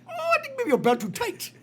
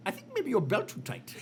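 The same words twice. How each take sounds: First: Put-on much higher Indian accent repeat, breaking into laughter; Indian accent, laughing. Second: Put-on higher, deadpan Indian accent diagnosis; the doctor's Indian accent, offered as a calm verdict. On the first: Doctor repeats his verdict in a hammed-up Indian accent. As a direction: ham up the Indian accent while laughing through it. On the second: Doctor tells the panicking patient, in an Indian accent. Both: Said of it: "Your impression of Indian guys".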